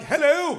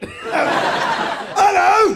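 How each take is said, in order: First: It is said in a nice, posh British accent. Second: It is said in a rough, exaggerated British accent.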